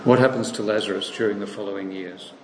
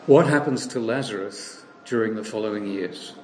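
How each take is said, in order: First: "What happens to Lazarus" run through briskly; rapid second asking with no stress on "What"; quicker restatement. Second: Weighted on "What", posed slowly and deliberately; slow emphatic question. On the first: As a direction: repeat the question faster, lighter. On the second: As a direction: lean on "What" and let the question hang. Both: Shown as a demonstration. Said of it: "This is the question".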